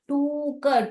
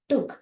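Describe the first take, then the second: First: The vowel is drawn out long. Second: The vowel is kept short. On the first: The speaker calls it wrong. "टूक नहीं पढ़ेंगे" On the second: The speaker calls it right. "स्मॉल"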